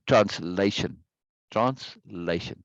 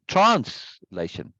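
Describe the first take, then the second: First: "translation" with the weight on LA; trans-LA-tion, teacher's demo; second-syllable stress. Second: "translation" with a loud, drawn-out TRANS; TRANS-lation, deliberately misplaced stress; first-syllable stress. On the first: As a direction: overemphasize LA in translation, slowly. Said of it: "I'm overemphasizing that second syllable". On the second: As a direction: punch TRANS in translation, slowly. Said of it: "If I say translation". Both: Shown as a demonstration.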